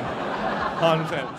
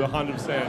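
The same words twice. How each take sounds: First: Hundred percent drawn out slowly through a laugh; slow, laughing repeat. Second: Said in the usual way. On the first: Shown as a demonstration. Comic to crowd, repeating for emphasis, slow and laughing. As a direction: stretch it out slowly while laughing.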